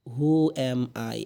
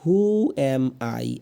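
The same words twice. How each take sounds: First: Slow, drawn-out Who am I; slow repeat. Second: Very slow, drawn-out who am I; slow model question. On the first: Teacher repeats the question slowly for students. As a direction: say it slowly again for practice. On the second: Teacher models the question slowly for students. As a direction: stretch each word for learners. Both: Shown as a demonstration. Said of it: "এরপরে দিয়ে আছে".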